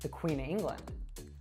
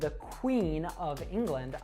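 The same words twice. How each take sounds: First: The word of is reduced to uh. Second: The word of is said in full. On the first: "I would reduce that to" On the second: "if I say"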